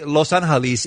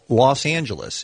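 First: The name is pronounced the Spanish way. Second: The name is pronounced the English way. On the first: This is the original form of the name. "you can say Los Angeles is the correct pronunciation" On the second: This is the form used locally in English. "in the United States, the city is really now called Los Angeles"

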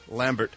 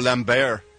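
First: The name is said with an American accent. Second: The name is said with a French accent.

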